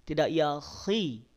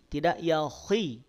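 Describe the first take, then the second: Both takes have the same delivery.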